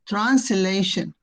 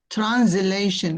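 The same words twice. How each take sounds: First: The first s is voiceless like an s. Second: The first s is voiced like a z. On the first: "translation with S, with the sound S" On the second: "translation with Z"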